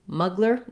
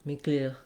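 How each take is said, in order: First: It is said with American vowels and R. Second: It is said with French vowels and R. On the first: "they would read this Miclir, Miclir as muggler" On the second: "the French R"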